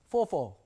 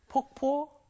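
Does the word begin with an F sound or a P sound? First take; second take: F sound; P sound. First: The word begins with an F sound. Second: The word begins with a P sound. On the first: The speaker calls it wrong. "F 발음" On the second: The speaker calls it right. "P 발음"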